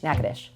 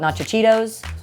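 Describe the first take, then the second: First: The name is said quickly as one clipped word. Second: The name is said as four full syllables. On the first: This is how the speaker says the name. The speaker calls it right. "I just say it quickly" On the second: This is how newcomers misread the name. The speaker calls it wrong. "I've had recruits call it Nachichitos"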